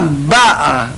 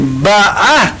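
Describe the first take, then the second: First: The stress is on the first syllable. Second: The stress is on the second syllable. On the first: She already came. "а если пришла «баа» на первый слог" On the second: She is coming now. "Если ударение на втором слоге «баа» приходит"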